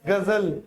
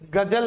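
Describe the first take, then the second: First: It begins with a guttural gh sound. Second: It begins with a plain g sound. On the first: The speaker calls it right. "क्या बोलेंगे? गजल" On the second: The speaker calls it wrong. "गजल नहीं"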